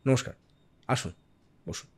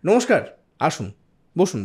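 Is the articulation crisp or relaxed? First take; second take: relaxed; crisp. First: Sounds are casual and less carefully articulated. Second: Every sound is articulated very clearly and fully. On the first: The picture on screen supports the words. "এতটা clarity দরকার নেই" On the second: Listeners must understand without any picture. "আমি একদম পরিষ্কার করে বলবো"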